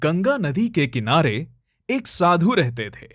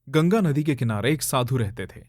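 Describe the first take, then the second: First: It is read smiling, in a bright playful tone. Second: It is read in a plain, serious narrating tone. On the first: The story is told for children. "बच्चों के लिए हमें बिल्कुल opposite जाना है। Smile करेंगे।" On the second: The story is told for an adult audience. "अब ये अगर मैं किसी बड़े इंसान के लिए करूं तो मैं कैसे करूंगा?"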